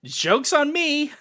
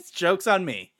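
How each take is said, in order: First: High, slow rueful sing-song; wry self-mockery. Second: Laughing it off; laughing repeat. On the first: Fan laughing at his own dashed hopes, high rueful mockery. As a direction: lift it high and mock yourself. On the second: Fan laughing at his dashed hopes, chuckling. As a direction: chuckle through the words. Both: Real, not acted.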